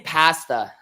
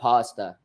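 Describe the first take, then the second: First: Pasta is said the Canadian way. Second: Pasta is said the American way. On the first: "I say pasta" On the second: "instead of pasta"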